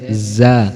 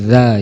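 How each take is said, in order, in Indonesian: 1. Konsonannya bunyi z yang berdengung. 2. Konsonannya bunyi th yang lembut. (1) "Jangan sampai keliru membaca menggunakan huruf z" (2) "tetapi za"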